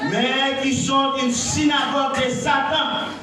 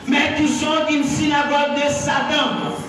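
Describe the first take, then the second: The two takes are said the same way.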